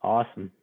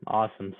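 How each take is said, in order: Both takes have the same delivery.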